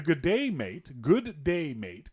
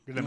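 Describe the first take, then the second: First: "Good day, mate" said as three separate words. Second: "Good day, mate" run together as one syllable. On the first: Canadian explaining the greeting, "Good day, mate" carefully separated. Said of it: "comes out as one word". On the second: Canadian copying Aussie greeting, "Good day, mate" as one slurred word. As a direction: squash "Good day, mate" into a quick blurt. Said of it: "One syllable". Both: Shown as a demonstration.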